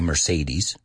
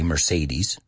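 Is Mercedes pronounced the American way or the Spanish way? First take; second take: American; American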